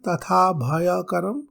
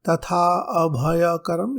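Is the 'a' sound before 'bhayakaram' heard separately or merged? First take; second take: merged; separate. First: The words run together without a separate 'a'. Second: A separate 'a' is heard before 'bhayakaram'.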